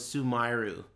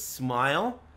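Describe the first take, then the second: First: The name is said with added vowels, three syllables. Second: The name is said as one English syllable. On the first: This is how the name was heard in Japan. "I swear I thought his name was Sumiru" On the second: This is the actual name. "His name was Smile"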